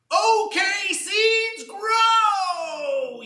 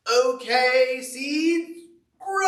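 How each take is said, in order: First: Very high, loud yell, drawn out on grow; even louder shout. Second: Loud, high command, rising on grow; shouting at seeds. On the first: Toad yelling at seeds that still won't sprout, louder shout. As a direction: bellow it into the wind, fed up. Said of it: "Even louder into the wind". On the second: Toad ordering his freshly planted seeds to grow, loud call. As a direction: bark it at the ground like an order. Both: Acted.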